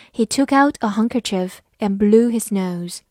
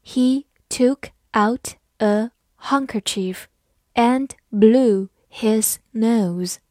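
First: Said in the usual way. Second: Slow and deliberate, each word separate; slow teacher's model reading. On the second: Shown as a demonstration. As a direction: read it word by word for learners. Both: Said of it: "好，慢慢来读".

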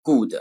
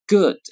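First: Good said like Chinese ge with a vowel; wrong Chinglish good; pinyin-style good. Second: Good short and clipped with no vowel after; crisp English good. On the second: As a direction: snap good out. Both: Shown as a demonstration. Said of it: "不能读成good".

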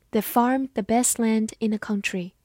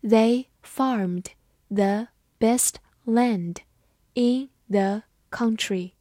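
First: Said in the usual way. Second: Very slow, word by word; careful slow-motion teacher reading; slow read-through. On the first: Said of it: "慢读一遍". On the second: Shown as a demonstration. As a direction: read it slowly with a pause between words. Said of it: "好，慢读一遍".

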